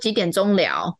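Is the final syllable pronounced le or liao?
liao. It ends with the Malaysian-style syllable liao.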